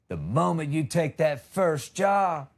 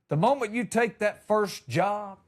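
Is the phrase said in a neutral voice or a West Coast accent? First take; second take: West Coast; neutral. First: It is said in a laid-back West Coast accent. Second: It is said in a plain, neutral accent. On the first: "he's from the West Coast. So it went more like" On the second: "except it didn't sound like that"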